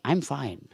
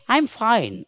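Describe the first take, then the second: First: Said in the usual way. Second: "I'm" lifted and held; stress on I'm. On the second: Shown as a demonstration. Teacher showing students a stressed "I'm" in "I'm fine". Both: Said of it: "make it I".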